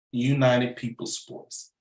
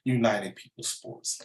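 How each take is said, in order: First: United People Sports spelled out slowly, every word weighted; slow, deliberate United People Sports; slow emphatic. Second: Said in the usual way. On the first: Shown as a demonstration.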